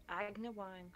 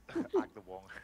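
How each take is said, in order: First: Agna Wang read as spelled, not Ada Wong; misspelled name. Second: Agna Wang drawn out slowly through a laugh. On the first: Retold or imitated. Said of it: "Or as Sarah calls her". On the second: Real, not acted.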